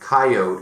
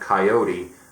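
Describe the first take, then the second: First: It is said the local Colorado-Wyoming way. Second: It is said the general, non-local way. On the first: This is how locals say it. "people say coyote" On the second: This is how people elsewhere say it. "instead of coyote"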